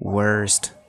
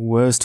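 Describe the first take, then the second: First: It is said with an r sound. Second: It is said without an r sound. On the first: "अमेरिकनमा चाहिँ" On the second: "यो आर चाहिँ silent हुन्छ ब्रिटिसमा"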